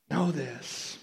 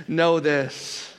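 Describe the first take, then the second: First: Much softer, hushed KNOW THIS; soft repeat. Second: Said in the usual way. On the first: Real, not acted. Preacher urging listeners to know God's love, hushed. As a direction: say "Know this" softly, letting it sink in.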